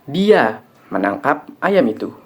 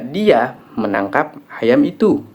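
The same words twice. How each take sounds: First: The stress falls on the word 'dia'. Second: The stress falls on the word 'itu'. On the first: It was this person, not someone else, who caught it. "Yang menangkap ayam itu adalah dia, bukan orang lain" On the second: It was that chicken that was caught, not this one. "Yang ditangkap adalah ayam itu, bukan ayam ini"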